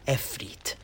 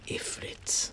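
First: The word begins with an 'e' vowel sound. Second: The word begins with an 'i' vowel sound. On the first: "I've also heard it pronounced as efrit" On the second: "These djinn are known as fire ifrits"

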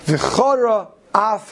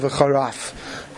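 First: A small break separates the two words. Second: The two words run together into one. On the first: It means the anger is kindled. The speaker calls it right. "Tzarech litein revach bein v'chara la'af" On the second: It sounds like a word meaning sharpness. The speaker calls it wrong. "D'loy l'shtama v'charaf"

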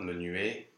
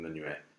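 First: The final vowel is a closed E. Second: The final vowel is an open E. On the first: The speaker calls it wrong. "it's not menuet" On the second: The speaker calls it right. "go for an open E"

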